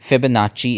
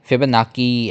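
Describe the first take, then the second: First: The 'cc' is said as a ch. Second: The 'cc' is said as a hard k. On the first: The speaker calls it right. "फिबोनाची is the pronunciation" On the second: The speaker calls it wrong. "फिबोनाकी ऐसे नहीं स्पेलिंग है"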